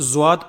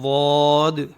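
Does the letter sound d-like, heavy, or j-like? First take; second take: j-like; heavy. First: It starts with a j-like sound. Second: It is a heavy sound with a full mouth. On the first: It sounds like a different letter, jim. The speaker calls it wrong. "ज्वाद पढ़ते हैं, जा की बू आती है" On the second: It has its own point of articulation. The speaker calls it right. "वॉद का अपना ही खुद का एक मखरज है"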